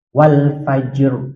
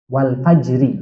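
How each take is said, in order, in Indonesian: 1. Kata itu berakhir pada r tanpa vokal. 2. Kata itu berakhir dengan vokal i pendek.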